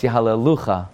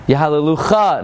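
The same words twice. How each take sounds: First: "Yahalelucha" stressed on "lu"; "Yahalelucha" with an unstressed final "cha"; correct stress. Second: "Yahalelucha" punched on the final "cha"; "Yahalelucha" with the accent wrongly at the end; mispronounced stress. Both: Shown as a demonstration. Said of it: "No, it's Yahalelucha".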